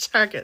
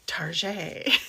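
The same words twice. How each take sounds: First: It is said in a plain, ordinary way. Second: It is said in a fancy, French-sounding way. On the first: "instead of Target" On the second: "It sounds so fancy, like Target"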